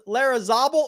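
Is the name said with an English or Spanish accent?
English. The name is said with an English accent.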